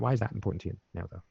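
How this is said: The stress falls on the word that. The question asks about the thing itself. "the inflection dictates which part of the question you hook onto, which is the tangible, which is the that"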